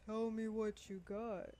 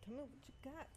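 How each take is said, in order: First: It is said forcefully, with more energy. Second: It is said softly and casually.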